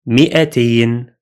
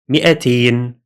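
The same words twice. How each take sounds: Both takes have the same delivery.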